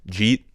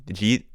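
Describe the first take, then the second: Both takes have the same delivery.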